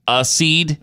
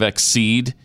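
First: The word starts with a plain vowel before s. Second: The word starts with a vowel plus k before s. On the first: The speaker calls it wrong. "I guess it's mispronounced a lot" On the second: The speaker calls it right. "Instead of"

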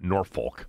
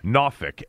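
First: It is said the way outsiders pronounce it. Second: It is said the way locals pronounce it. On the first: The speaker calls it wrong. "not Norfolk" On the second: The speaker calls it right. "is the way they pronounce it down there"

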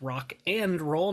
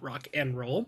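First: The word 'and' is said in full. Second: The word 'and' is reduced to 'n'. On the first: The speaker calls it right. "That's rock and roll" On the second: The speaker calls it wrong. "not rock and roll"

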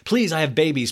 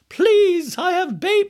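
First: It is said in the speaker's normal voice. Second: It is said in a put-on imitation voice.

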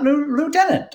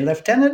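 First: The word begins with a 'loo' sound. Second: The word begins with a 'left' sound. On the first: This is not the British way of saying it. The speaker calls it wrong. "not Lieutenant" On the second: This is the British way of saying it. The speaker calls it right. "we say Lieutenant because of our British heritage"

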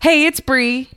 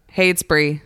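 First: The voice is bright and high in energy. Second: The voice is flat and low in energy. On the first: The speaker sounds too happy. "You overshot the landing. Now you're too happy" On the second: The speaker sounds like she hates being there. "you were so monotone. You sound like you hate to be here"

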